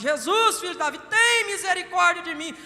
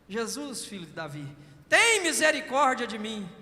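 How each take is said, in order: First: It is shouted even more loudly. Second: It is shouted, but less loudly.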